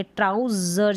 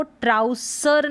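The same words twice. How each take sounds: First: ट्राउजर with a buzzing "z" in the middle; voiced "z" before the final "ur" of ट्राउजर; correct pronunciation. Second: ट्राउसर with a hissing "s" in the middle; unvoiced "s" before the final "ur" of ट्राउसर; wrong pronunciation. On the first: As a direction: say ट्राउजर as TROW-zur. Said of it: "जर पढ़ेंगे". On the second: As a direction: say ट्राउसर as TROW-sur. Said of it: "इसको ट्राउसर नहीं पढ़ेंगे". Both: Shown as a demonstration.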